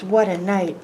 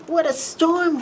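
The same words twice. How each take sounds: First: Mole grumbles under his breath, lightly voiced; muttering mole. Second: Much higher, chirpy little bird voice; twittering wren. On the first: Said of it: "Mole mutters". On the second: Acted. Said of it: "twitters wren".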